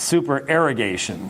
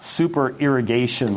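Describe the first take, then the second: First: The middle sounds like erogation, not irrigation. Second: The middle sounds like the word irrigation. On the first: It names the intended theological term. The speaker calls it right. "it's a different word" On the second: It suggests watering crops. The speaker calls it wrong. "you've mispronounced it ... not super irrigation like you're over-watering the crops"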